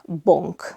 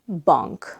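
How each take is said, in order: First: The vowel is closed, like an O sound. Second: The vowel is between open A and O. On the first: The speaker calls it wrong. "It's also not bonk" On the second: The speaker calls it right. "It's between the two"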